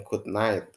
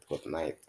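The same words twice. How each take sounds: First: Said in the usual way. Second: "good night" dropped low and soft, as if tucking someone in; soft bedtime good night. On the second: Shown as a demonstration. Teacher showing how you say "good night" at bedtime, softly. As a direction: say "good night" gently and quietly, like to someone going to sleep. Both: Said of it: "artinya selamat tidur ya".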